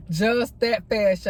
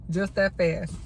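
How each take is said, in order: First: Just that fast drawn out slowly, each word weighted; slow emphatic repeat. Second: Said in the usual way. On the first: Real, not acted. Telling her followers how quick the birth was, slow and emphatic. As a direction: lean into it, spell it out slow. Repeats phrase to stress speed.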